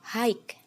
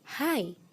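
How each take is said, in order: First: The word ends with a consonant sound. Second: The word ends on the vowel sound. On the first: The speaker calls it wrong. "Ada paten G-nya" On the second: The speaker calls it right. "pengucapan yang benar adalah high"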